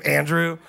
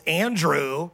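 First: Andrew punched louder with a laugh; pointed Andrew. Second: Said in the usual way. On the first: Shown as a demonstration. Pastor teasing John's naming of Andrew, laughing emphasis. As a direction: land the name Andrew like a jab. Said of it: "That's how I read it". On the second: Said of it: "that's for real how I read it".

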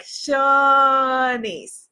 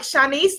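First: Shawnice drawn out slowly with an open aw, SHAW-neece; slow Shawnice, lingering on the aw. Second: Shanice said with a short a, sha-NEECE; Shanice, quick and light. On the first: Correcting herself to the viewer, slow drawn Shawnice. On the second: Contrasting the wrong name with the right one, Shanice the short way. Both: Shown as a demonstration. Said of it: "it's Shawnice, not Shanice".

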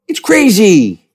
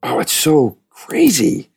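First: Much higher, louder, slow put-on voice; Sam Rockwell. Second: Said in the usual way. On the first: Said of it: "That's my Sam Rockwell impression".

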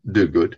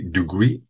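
First: Duguid said as "DOO-good"; other pronunciation. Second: Duguid said as "doo-GWEE"; alternative pronunciation. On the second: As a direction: say Duguid French-style, ending in "gwee". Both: Shown as a demonstration. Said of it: "so it could be Duguid or Duguid".

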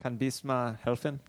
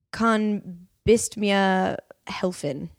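First: Quick echo of Kann bist mir helfen; repeating the German phrase. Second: Slow, careful German, Kann bist mir helfen; German demo to the hosts; German phrase demo. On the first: Retold or imitated. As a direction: try the German phrase back. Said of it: "Oh, that's good German". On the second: Shown as a demonstration. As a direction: spell out each German word slowly. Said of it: "Like, if you say".

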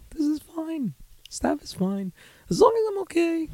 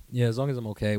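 First: Soft, very high squeak; feigned acceptance. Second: Said in the usual way. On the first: Acted. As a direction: squeak it out as if barely coping.

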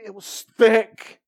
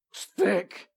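First: Thick drawn out slow and louder; a slow, heavy thick; stressed thick. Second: Said in the usual way. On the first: Shown as a demonstration. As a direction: lean hard on thick.

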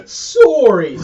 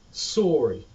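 First: "Sorry" in a hammed-up Canadian accent, louder, o drawn round; a loud, teasing Canadian "Sorry"; mock Canadian sorry. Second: "sorry" with a round Canadian o before the r, said plainly. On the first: Friend mocking how Canadians apologise, hammed-up Canadian accent. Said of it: "That's how you know someone's Canadian". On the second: Shown as a demonstration. Explaining Canadian vowels to a friend, demo "sorry" with a round o. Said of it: "the way they pronounce the O Rs".

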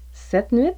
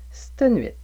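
First: Said in the usual way. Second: "c'te nuit" with the e of "cette" dropped, said "stə nuit"; québécois c'te nuit. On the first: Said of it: "Vous pourriez également entendre cette nuit". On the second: Shown as a demonstration. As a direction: squeeze "c'te" into a single "st" sound. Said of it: "ou c'te nuit". (« c'te nuit » dit « stə nuit », sans le e)

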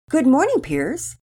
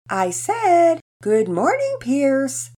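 First: Said in the usual way. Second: "Good morning, Piers" in a high singsong; sing-songy. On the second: A narrator's reading. Penelope greeting her engrossed brother again, sing-songy. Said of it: "in a sing-songy voice this time".

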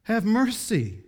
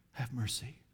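First: Higher, louder, slow cry for mercy; pleading cry. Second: Much softer, hollow whisper-like plea; hopeless plea. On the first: Preacher voicing the rich man crying out for mercy, loud and slow. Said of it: "He cried for mercy". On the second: Preacher voicing the helpless cry from hell, very soft. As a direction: let the cry fade out helpless. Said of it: "hopeless cry". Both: Acted.

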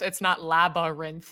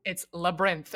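First: "labyrinth" slowly pulled into three parts, lab-a-rinth; mock-correct "labyrinth" with a clear middle vowel, lab-a-rinth; three-syllable labyrinth. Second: "labyrinth" squeezed into two syllables, lab-rinth. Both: Shown as a demonstration. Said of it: "It's two syllables".

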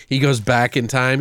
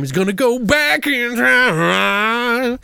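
First: Said in the usual way. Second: High, hugely drawn-out words; mock time-travel drama. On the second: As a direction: stretch it like a silly sci-fi effect.

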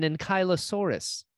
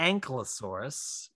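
First: "ankylosaurus" with a long "eye" after ank: ank-EYE-lo-saurus; pronunciation. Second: "Ankylosaurus" run together fast as ANK-luh-saurus; slow, squeeze "Ankylosaurus" into ANK-luh-saurus, no "eye"; pronunciation. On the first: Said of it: "the correct pronunciation of a particular dinosaur". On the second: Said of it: "But Ben decides to pronounce it". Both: Shown as a demonstration.

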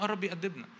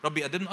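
First: آه lifted high, then يأدبنا falling to a firm close; preacher answering his own question with conviction. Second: يأدبنا rising as an open question; "رب يأدبنا؟" posed as a question to the congregation; doubting question. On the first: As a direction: answer "آه، رب يأدبنا" settled and sure. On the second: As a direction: ask "رب يأدبنا؟" with the pitch climbing on يأدبنا. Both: Shown as a demonstration.

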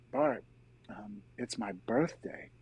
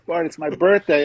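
First: Soft, slow confiding murmur; retold whisper. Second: Raised, louder retelling of the news; retold announcement. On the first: Brother whispers into his ear in a tearful hug, retold hushed. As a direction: imitate a hushed word in someone's ear. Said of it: "Bob whispers into my ear". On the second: Brother tells him about his birthday, retold loud and raised.

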